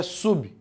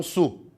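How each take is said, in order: First: "sub" closed on a sounded B, like SU-bi; sílaba certa. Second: Bare "su", open, with no B; sílaba errada. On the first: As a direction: say "sub" with the B clearly released. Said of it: "A primeira sílaba é sub". ("sub" com o B pronunciado no fim) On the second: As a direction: say "su" stopping on the vowel, dropping the B. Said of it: "não su". ("su" sem o B no fim) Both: Shown as a demonstration.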